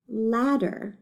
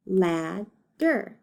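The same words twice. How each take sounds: First: Said in the usual way. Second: LADDER split in two, lad, then der; broken into syllables. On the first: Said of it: "let's read the word". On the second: Shown as a demonstration. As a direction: count out LADDER with a gap between syllables. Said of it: "decide how many syllables it has".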